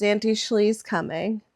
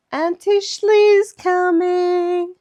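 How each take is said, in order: First: Said in the usual way. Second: High, loud, drawn-out squeal of anticipation; slow, high-pitched gleeful holler; excited child. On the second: Retold or imitated. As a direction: imitate a thrilled little niece, stretching the words. Acts out niece's excitement.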